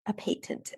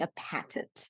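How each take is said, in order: First: It is said in a British accent. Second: It is said in an American accent.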